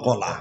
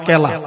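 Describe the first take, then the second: First: The first vowel sounds like 'o'. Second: The first vowel sounds like 'e'. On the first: The speaker calls it right. "কলা বলবেন" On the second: The speaker calls it wrong. "কেলা বলবেন না"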